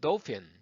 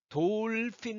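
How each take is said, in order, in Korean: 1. 영어 발음으로 말해요. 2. 한국식 음절로 말해요.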